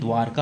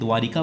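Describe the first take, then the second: First: No vowel follows the r. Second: An extra i vowel follows the r. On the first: The speaker calls it right. "लेकिन द्वारका होता है" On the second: The speaker calls it wrong. "हम द्वारिका बोलते हैं"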